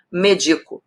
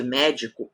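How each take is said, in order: First: Medico, stress on the second syllable DI; unaccented verb form. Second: Médico, stress on the first syllable MÉ; accented noun. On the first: Teacher to exam students, medico stressed on DI. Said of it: "vira medico". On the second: Teacher to exam students, médico stressed on MÉ. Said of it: "Se eu tiro o acento de médico". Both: Shown as a demonstration.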